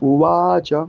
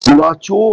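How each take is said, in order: First: The word ends with a short 'a' sound. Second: The word ends with an 'o' sound. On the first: The speaker calls it right. "চো নয় উবাচ" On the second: The speaker calls it wrong. "অনেকে বলে চো নয়"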